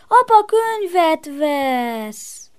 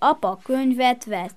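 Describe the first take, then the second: First: It is said with an exclaiming tune. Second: It is said with a plain, stating tune. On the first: The speaker is excited or glad about it. "meg felkiáltatod is" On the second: The speaker simply reports it as fact.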